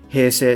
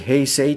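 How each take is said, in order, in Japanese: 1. どちらの音節も、長い'e'の音です。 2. どちらの音節も、はっきりした'ei'の音です。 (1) "っていう感じで言っちゃう" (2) "あんまり平成とかって言わずに"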